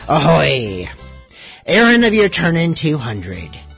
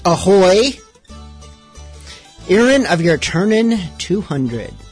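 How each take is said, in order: First: It is read in a put-on pirate voice. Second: It is read in a plain, normal voice. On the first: The speaker calls it right. "Let me try this" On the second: The speaker calls it wrong. "I am not reading in pirate speak"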